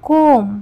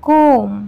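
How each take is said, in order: No difference in how they are said.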